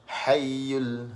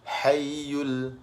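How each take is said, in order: The two takes are said the same way.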